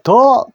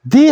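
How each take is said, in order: First: The vowel is a short, weak 'uh' sound. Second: The vowel is a long 'ee' sound. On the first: "the도 더 할 때가 있고" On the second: "뒤에 모음자 소리가 날 경우에는 the라고 읽습니다"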